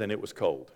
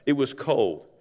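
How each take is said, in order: First: Quiet, weighty line. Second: Said in the usual way. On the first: Shown as a demonstration. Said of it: "and John says". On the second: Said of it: "Why does John do that?".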